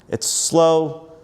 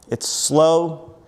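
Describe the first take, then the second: The two takes are said the same way.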